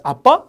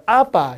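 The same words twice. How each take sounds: First: 아빠 high and loud, rising on 빠; comic end stress. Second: 아빠 punched and stretched on 아, falling after; stress on first syllable. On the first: Teacher mocking the wrong stress, 아빠 punched at the end. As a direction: punch the 빠 of 아빠 like a question. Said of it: "이렇게 웃긴 거니까". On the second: Teacher showing front stress by analogy, 아빠 front-stressed. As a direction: hit the 아 in 아빠. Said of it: "강세를 앞에 줘요". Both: Shown as a demonstration.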